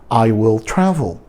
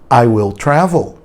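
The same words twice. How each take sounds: The two takes are said the same way.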